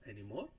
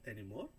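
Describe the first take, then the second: Both takes have the same delivery.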